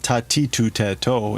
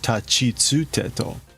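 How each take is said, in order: First: The middle syllables sound like 'ti' and 'tu'. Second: The middle syllables sound like 'chi' and 'tsu'. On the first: The speaker calls it wrong. "It's not tatitu teto" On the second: The speaker calls it right. "It's tachitsu teto"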